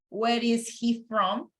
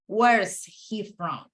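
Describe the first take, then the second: First: The word is is said in full. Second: The word is is contracted to 's. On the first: "Instead of saying" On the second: "I can contract this and say"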